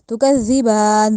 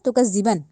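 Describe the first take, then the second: First: It has a soft z and a long final vowel. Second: It has a hard z and a short final vowel. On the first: The speaker calls it right. "जा को नरमी से बा पे खड़ी ज़बर पढ़नी है" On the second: The speaker calls it wrong. "जाल को जा बना दिया, बा को खड़ी ज़बर को पढ़ा नहीं"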